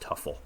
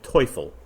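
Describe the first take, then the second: First: The first vowel sounds like 'uh', English style. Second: The first vowel sounds like 'oy', German style. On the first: It is the way the player himself went by. "the correct pronunciation was Tuffle" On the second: It is the German word for devil. "I would pronounce this Tim Teufel"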